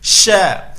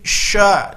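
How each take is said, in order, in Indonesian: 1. Konsonan itu diucapkan tanpa bibir membulat. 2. Konsonan itu diucapkan dengan bibir membulat, dimonyongkan ke depan.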